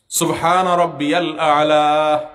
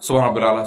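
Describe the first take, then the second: First: It is said slowly and calmly. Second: It is said fast and hurried.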